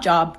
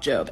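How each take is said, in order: First: The vowel is short, as in 'job'. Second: The vowel is long, as in 'robe'. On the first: The speaker calls it wrong. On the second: The speaker calls it right.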